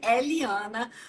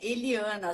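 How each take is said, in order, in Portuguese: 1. O primeiro E é aberto. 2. O primeiro E é fechado.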